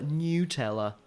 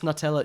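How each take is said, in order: First: The first syllable sounds like 'new'. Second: The first syllable sounds like 'nut'. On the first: The speaker calls it wrong. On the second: The speaker calls it right.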